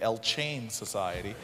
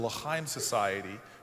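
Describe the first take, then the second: First: The first word is said like English 'El Chain'. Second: The first word is said in Hebrew style.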